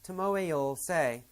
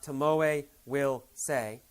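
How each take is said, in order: First: The word will is reduced to 'll. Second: The word will is said in full. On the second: "not Tomoe will say"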